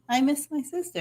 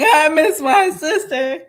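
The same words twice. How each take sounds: First: It is said in a subtle, understated way. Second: It is said in an over-the-top, dramatic way.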